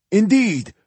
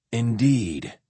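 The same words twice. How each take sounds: First: Higher, louder pampered priest; Indeed pitched up high as the old priest; high old zealot. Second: Lower, calm warrior voice; Indeed said low and resonant; deep resonant voice. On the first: Ereshkigal's high voice. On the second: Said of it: "in his deep, resonant voice". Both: Acted.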